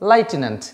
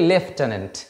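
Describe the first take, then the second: First: The first syllable sounds like 'lie'. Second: The first syllable sounds like 'lef'. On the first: The speaker calls it wrong. "এখানে অনেকে লাইটেন্যান্ট বলে" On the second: The speaker calls it right. "এটা হচ্ছে actually লেফটেন্যান্ট"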